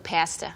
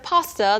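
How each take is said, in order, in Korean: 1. 이 단어는 캐나다식으로 발음됐어요. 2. 이 단어는 캐나다식이 아닌 표준 방식으로 발음됐어요. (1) "In Canada, sometimes they say things differently" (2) "instead of pasta"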